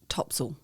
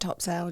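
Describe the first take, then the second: First: It is pronounced the way locals say it. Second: It is pronounced the way the spelling reads. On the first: This is how people from the area say the name. The speaker calls it right. "if you speak to a local, they're going to call it Topsail" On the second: This is how newcomers read the name. The speaker calls it wrong. "you will read it. It sounds like Topsail, just like Craig has been pronouncing it"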